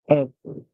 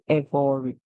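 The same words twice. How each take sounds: First: The middle is said as a plain 'r' sound. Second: The middle is said as a full 'er' sound. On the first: The speaker calls it right. "We will say ev and then r, E, every" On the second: The speaker calls it wrong. "we do not say every. We do not put the E and R together to say er"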